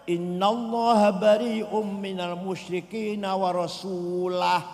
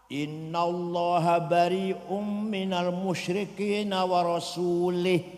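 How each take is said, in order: First: The last word ends with an a vowel. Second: The last word ends with an i vowel. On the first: God and the Messenger disown the idolaters. The speaker calls it right. "Yang benar bacanya" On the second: God disowns the idolaters and also the Messenger. The speaker calls it wrong. "ada orang baca Quran salah"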